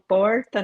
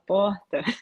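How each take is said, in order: First: It is said in a non-northern regional accent. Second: It is said in her northern Brazilian accent.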